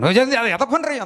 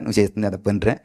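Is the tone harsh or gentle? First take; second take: harsh; gentle. First: It is said harshly, like scolding. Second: It is said gently, like coaxing.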